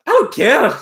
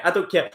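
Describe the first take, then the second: First: Imitating a defiant troll, pitched up and louder; mocking the troll. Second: Said in the usual way. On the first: Streamer mocks the troll's middle fingers, pitched-up sneer. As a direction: throw it back at him like a cocky kid. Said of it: "He's throwing middle fingers up, like".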